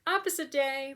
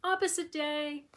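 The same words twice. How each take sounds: First: The dog's cheeky reply, pitched higher; a playful made-up dog voice, higher than her own. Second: The dog talking back, pitched higher and slower; a playful made-up dog voice, higher than her own; the dog's voice. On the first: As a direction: voice the stubborn little dog, high. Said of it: "little man read the text and was like". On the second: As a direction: voice the dog's cheeky reply, drawn out up high. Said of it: "he reads the text and is like". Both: Retold or imitated.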